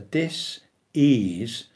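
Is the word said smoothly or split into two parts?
split. The word is split with a break after dis. It means a lack of ease. "It's a dis-ease of our whole being"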